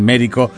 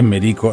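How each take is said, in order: First: The stress is on the first syllable. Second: The stress is on the second syllable. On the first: The speaker calls it wrong. "no le digan Merico porque está mal" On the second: The speaker calls it right. "es Merico, sin tilde"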